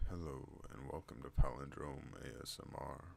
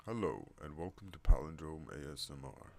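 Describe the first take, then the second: First: Measured, slightly lowered welcome; deep voice greeting. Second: Loud, swooping put-on welcome; announcer greeting. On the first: Vlogger repeating the channel welcome, lower and evener voice. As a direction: settle into a deeper, more even voice. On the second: Vlogger welcoming viewers to the channel, loud announcer voice. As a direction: open strongly with a louder hello. Greeting tried in two registers. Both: Shown as a demonstration.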